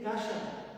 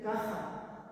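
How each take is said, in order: First: The middle consonant is a soft 'sh' sound. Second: The middle consonant is a harsh throaty 'kh' sound. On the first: This is the old Aragonese form. "no tenéis que decir kasha" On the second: This is the Castilian form. "tenéis que decir caja"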